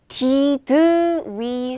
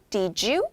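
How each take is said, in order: First: The two words are said as separate sounds. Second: The two words blend into one linked syllable. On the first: The speaker calls it wrong. "did we 하면 안 되죠?" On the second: The speaker calls it right. "이게 한 글자예요"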